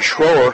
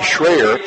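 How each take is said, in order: First: The name is said with an 'oh' vowel. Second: The name is said with an 'eye' vowel. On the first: The speaker calls it wrong. "or I should say Schreyer" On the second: The speaker calls it right. "is the correct pronunciation"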